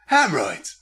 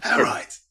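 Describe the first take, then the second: First: Said in the usual way. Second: Hemorrhoids nur gehaucht, ohne Stimme; whispered word. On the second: Shown as a demonstration. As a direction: breathe out Hemorrhoids voicelessly.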